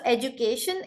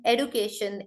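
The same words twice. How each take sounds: First: British "education" with a j sound; British pronunciation. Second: American "education" with a d, no j; American pronunciation. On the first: Teacher recapping for the class, British "education" with j. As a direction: say "education" as "ej-u-cation". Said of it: "education is British". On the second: Teacher recapping for the class, American "education" with d. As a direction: say "education" as "ed-u-cation". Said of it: "American, guys". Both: Shown as a demonstration.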